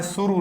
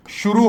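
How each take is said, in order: First: "शुरू" with a plain s sound, quieter; wrong pronunciation, with s, softer. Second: "शुरू" said with a clear sh sound at the start; correct pronunciation, with sh. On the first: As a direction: show the mistake: "शुरू" with s, quietly. ("शुरू" को स वाली गलत ध्वनि में, धीमी आवाज़ में) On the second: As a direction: give "शुरू" with a proper sh. ("शुरू" को सही श ध्वनि के साथ) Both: Shown as a demonstration. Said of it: "शुरू नहीं होता".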